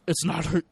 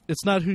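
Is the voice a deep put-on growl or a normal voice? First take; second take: deep growl; normal. First: It is said in a deep, gravelly put-on voice. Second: It is said in a normal speaking voice.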